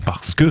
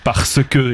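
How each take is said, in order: First: The words are clipped, with sounds dropped. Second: Every syllable is pronounced fully and carefully. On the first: The speaker is an ordinary person. "Nous, le bas peuple, on dit" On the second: The speaker is refined. "il prononce très bien"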